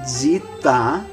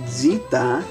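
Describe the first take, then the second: First: It starts with dz and an ee vowel. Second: The same.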